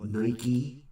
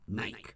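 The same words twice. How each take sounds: First: It is said the American way. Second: It is said the British way. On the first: "we call it Nike" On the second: "Just Nike"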